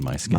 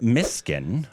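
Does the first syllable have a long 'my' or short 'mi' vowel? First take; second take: long; short. First: The first syllable has a long 'my' vowel. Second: The first syllable has a short 'mi' vowel. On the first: The speaker calls it wrong. "I'm sure I've missed it multiple times. I think I've said my skin" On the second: The speaker calls it right. "I believe that is the correct pronunciation"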